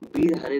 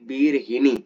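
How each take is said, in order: First: The third syllable is said as ha. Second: The third syllable is said as hi. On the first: The speaker calls it wrong. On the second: The speaker calls it right.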